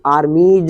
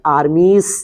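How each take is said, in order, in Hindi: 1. यह शब्द गुनगुनाती हुई z आवाज़ से खत्म होता है। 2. यह शब्द फुसफुसाती हुई s आवाज़ से खत्म होता है। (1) "इस एस का उच्चारण जो है जा होगा" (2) "आर्मीस नहीं"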